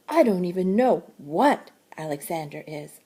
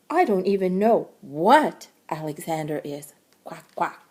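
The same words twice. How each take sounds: First: A gentle hint of a puzzled butterfly. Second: Lightly voiced fussy duck, ending in quacks; a hint of a gossipy duck shrugging it off. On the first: Butterfly telling Jessie she doesn't know, lightly voiced and puzzled. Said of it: "and said". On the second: Duck telling Jessie she doesn't know, lightly voiced and fussy. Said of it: "replied the duck". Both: A narrator's reading.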